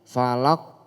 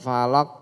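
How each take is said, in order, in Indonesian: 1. Huruf q di akhir dilepas dengan pantulan yang bergema. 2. Huruf q di akhir berhenti datar tanpa memantul. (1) "tapi falaq" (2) "Bukan falaq"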